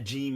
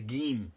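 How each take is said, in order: First: The word begins with a J sound. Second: The word begins with a hard G sound.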